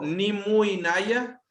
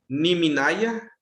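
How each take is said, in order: First: The u sound is kept before inaya. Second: The u sound is dropped, giving minaya. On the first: The speaker calls it wrong. "suena raro" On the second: The speaker calls it right. "suena bien"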